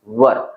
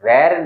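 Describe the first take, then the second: First: The vowel sounds like the one in 'fur'. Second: The vowel sounds like the one in 'air'. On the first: The speaker calls it right. "इसका pronunciation होगा वर" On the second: The speaker calls it wrong. "इसका pronunciation वेर नहीं होगा"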